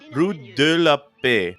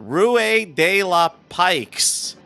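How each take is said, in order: First: The last word ends in a plain vowel. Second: The last word ends with a 'ks' sound. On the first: The speaker calls it right. "I'm going to try to pronounce it correctly in French" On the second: The speaker calls it wrong. "I love that weird pronunciation"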